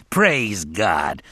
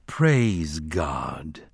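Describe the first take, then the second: First: Mildly tearful praise; weeping praise. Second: Low, solemn congregational response. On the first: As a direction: offer praise while weeping. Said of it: "still weeping". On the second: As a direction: intone it like a drained congregation. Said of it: "spoke it solemnly". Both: A narrator's reading.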